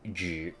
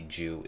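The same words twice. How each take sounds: First: The vowel is a front rounded ü sound. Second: The vowel is a plain English oo sound. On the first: The speaker calls it right. "the actual pronunciation" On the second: The speaker calls it wrong. "that's why they say Ju instead"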